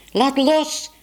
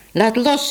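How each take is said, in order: First: Put-on child's yell. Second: Raised-pitch firm order; insistent command. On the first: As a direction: yell it high like a girl fighting over something. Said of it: "gilde Bibi". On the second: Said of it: "zeg ik je". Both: A narrator's reading.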